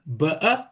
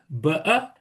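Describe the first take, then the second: First: It is said in a rural British accent. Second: It is said in a rural British accent.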